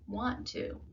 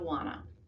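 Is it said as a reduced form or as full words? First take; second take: full; reduced. First: It is said as two full, clear words. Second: It is reduced and run together as one word. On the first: The speaker calls it right. "What you should be saying" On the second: The speaker calls it wrong. "things people say that show they're not enunciating"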